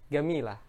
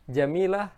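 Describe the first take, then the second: First: The word begins with a hard g sound. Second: The word begins with a j sound. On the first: This is the everyday Egyptian form. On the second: This is the standard Arabic form.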